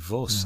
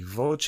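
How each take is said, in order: First: The word is said with a French pronunciation. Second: The word is said with an Italian pronunciation. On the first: "I'm guessing French it would be Vos" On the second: "Voce in Italian"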